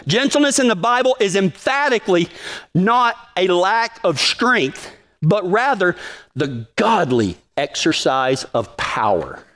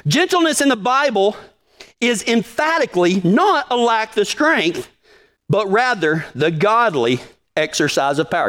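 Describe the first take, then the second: First: "not a lack of strength" slowed way down, every word leaned on; slow emphatic repeat. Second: Said in the usual way. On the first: Shown as a demonstration. Pastor repeating the quote for the congregation, slow and emphatic. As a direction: spell out "not" and "rather" slowly, hammering them home. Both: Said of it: "A guy named David Mathis said that".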